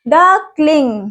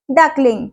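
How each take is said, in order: First: duckling drawn out slowly with a falling end; drawn-out model word; slow teaching word. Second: Said in the usual way. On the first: Shown as a demonstration. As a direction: stretch duckling so kids can copy it. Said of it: "बत्तख के बच्चों को हम क्या बोलते हैं". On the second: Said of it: "क्या बोलते हैं?".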